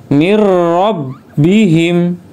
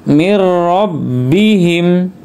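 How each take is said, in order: Both takes have the same delivery.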